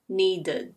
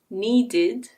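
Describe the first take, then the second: First: The last syllable has a schwa vowel. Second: The last syllable has a clear i vowel. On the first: "pronounce that I as a schwa" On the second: "instead of saying needed"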